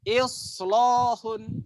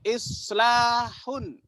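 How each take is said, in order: First: The L is pronounced heavy and thick. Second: The L is pronounced light and thin.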